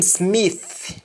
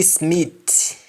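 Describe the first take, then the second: First: Said in the usual way. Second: Smith ending in T, as "Smit"; Jamaican pronunciation. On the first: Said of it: "the accent is missing". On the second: Shown as a demonstration. Teacher showing Jamaican speech, Smith said as "Smit". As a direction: close Smith on T instead of th. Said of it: "is missing".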